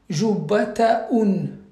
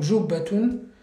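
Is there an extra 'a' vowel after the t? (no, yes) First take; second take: yes; no. First: An extra 'a' vowel follows the t sound. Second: No extra vowel follows the t sound. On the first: The speaker calls it wrong. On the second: The speaker calls it right.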